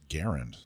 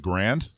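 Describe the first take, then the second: First: The word is said as two syllables. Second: The word is said as one syllable. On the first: The speaker calls it right. "Actually, it's pronounced Garand" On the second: The speaker calls it wrong. "You were supposed to correct my pronunciation of Grand"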